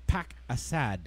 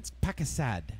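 First: Slowly spelled out phrase; slow and deliberate. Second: Said in the usual way. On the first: Shown as a demonstration. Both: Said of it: "I learned an expression".

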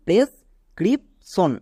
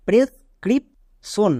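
First: প্রেসক্রিপশন said in one clear go; final model answer for students; correct pronunciation. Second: প্রেসক্রিপশন said very slowly, syllable by syllable; teacher modelling a hard word; slow model word. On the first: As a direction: give প্রেসক্রিপশন its correct full form. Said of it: "এর সঠিক উচ্চারণ". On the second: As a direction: draw out প্রেসক্রিপশন for the class. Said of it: "কেন আমি একে এভাবে কেন উচ্চারণ করলাম". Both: Shown as a demonstration.

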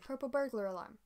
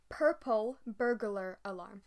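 First: Said in the usual way. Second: Slow, careful tongue twister; deliberately slowed purple burglar alarm; said slowly. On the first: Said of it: "Oh, I can't do it fast". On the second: Shown as a demonstration. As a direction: spell each word out slowly so it comes out right. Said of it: "I can say it if I say it slowly".

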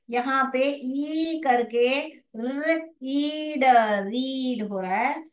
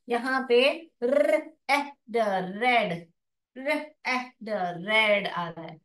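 First: रीड sounded out slowly as र- ईड with long ee; long ee read. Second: रेड sounded out slowly as र- ए ड with short e; short e read. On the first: (रीड को लंबी ई के साथ धीरे-धीरे बोलें) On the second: (रेड को छोटी ए के साथ धीरे-धीरे बोलें) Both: Shown as a demonstration. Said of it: "ध्यान से देखिए".

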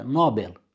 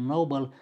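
First: Nobel stressed correctly on the first syllable, firmly. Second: Nobel stressed wrongly on the final syllable, drawn out. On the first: Teacher correcting the TV pronunciation of Nobel. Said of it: "el fiind premiul Nobel". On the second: Teacher showing how TV says Nobel wrongly. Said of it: "Accentul pus greșit". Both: Shown as a demonstration.

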